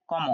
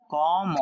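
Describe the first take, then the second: First: Said in the usual way. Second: "কম" with its first vowel held long; drawn-out vowel. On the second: Shown as a demonstration. Teacher models the word for students, "কম" stretched out.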